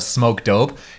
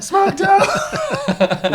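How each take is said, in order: First: It is said plainly, without yelling. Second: It is yelled loudly and excitedly.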